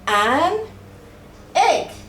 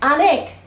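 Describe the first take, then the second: First: The two words are said separately and clearly. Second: The two words run together like one word.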